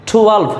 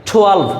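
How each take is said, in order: The two takes are said the same way.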